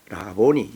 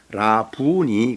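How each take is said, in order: First: The middle vowel is pronounced 'o'. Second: The middle vowel is pronounced 'u'. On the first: This is the form used in the translation. "라보니 이렇게 발음을 했습니다" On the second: This is the form in the original text. "원문에 그대로 발음을 하면 라부니 그래야 됩니다"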